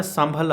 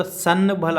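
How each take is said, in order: First: "संभल" run together as sambhal, n turned to m; reading pronunciation. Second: "संभल" split as san-bhal with a clear n; spelling pronunciation. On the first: Teacher showing how it is read, sambhal with m in "संभल". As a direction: blend the half n into an m before bh in "संभल". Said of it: "लेकिन पढ़ने में संभल आता". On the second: Teacher showing how it is written, full n in "संभल". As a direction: sound a full n before bh in "संभल". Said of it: "लिखने में तो संभल आता". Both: Shown as a demonstration.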